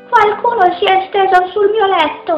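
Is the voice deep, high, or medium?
high. It is said in a small, high voice.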